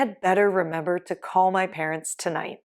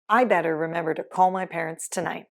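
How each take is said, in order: First: The word 'had' is said in full. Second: The word 'had' is left out entirely.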